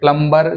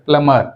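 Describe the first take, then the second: First: A b sound is heard after the m. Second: No b sound is heard after the m. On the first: The speaker calls it wrong. "प्लम्बर जो है गलत है" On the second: The speaker calls it right. "बी silent"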